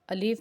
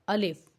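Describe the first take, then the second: First: The second vowel is drawn out long. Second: The second vowel is kept short. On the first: The speaker calls it wrong. "अलीफ नहीं पढ़ना" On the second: The speaker calls it right. "आप पढ़ें अलिफ"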